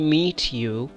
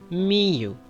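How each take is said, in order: First: The T at the end of meet is pronounced. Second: The T at the end of meet is dropped. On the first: The speaker calls it wrong. "Do not say meet you" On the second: The speaker calls it right. "You should say me you"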